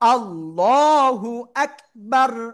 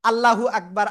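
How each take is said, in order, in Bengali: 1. Allahu-তে L ভারী ও মোটা। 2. Allahu-তে L হালকা ও পাতলা। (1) "ওই দিন শেষ" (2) "আমরা অনেকেই এতদিন পড়ে আসছি"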